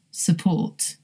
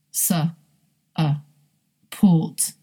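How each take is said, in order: First: "support" softly as suh-PORT, weak first vowel; joined-up schwa word. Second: "Su, uh, port" piece by piece with long pauses; broken into sounds. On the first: Teacher putting the word back together, schwa start. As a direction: blend "support" together, stressing the second syllable. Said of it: "Here's one more". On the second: Teacher breaking down the example word, separated sounds. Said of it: "Uh is the schwa sound". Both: Shown as a demonstration.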